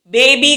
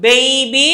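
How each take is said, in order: First: బేబీ said quickly, without stretching it; the careless short BABY to avoid; wrong baby. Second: బేబీ drawn out, both B sounds pressed; careful model BABY with long vowels; correct baby. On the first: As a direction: run బేబీ together briefly. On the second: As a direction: stretch and press each syllable of బేబీ. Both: Shown as a demonstration. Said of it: "బేబీ కాదు".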